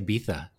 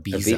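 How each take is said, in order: First: The middle consonant is a lisped 'th' sound. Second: The middle consonant is a plain 'z' sound. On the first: This is how people in Spain say it. "They also say Ibiza" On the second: This matches the spelling. "which is how it's spelled"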